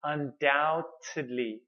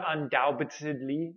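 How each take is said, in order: First: "Undoubtedly" slowly, as un-dow-tid-lee with no B; silent B. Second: "undoubtedly" with an audible B before the T; B wrongly pronounced. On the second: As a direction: sound out the silent B in "undoubtedly". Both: Shown as a demonstration. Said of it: "please don't pronounce the B".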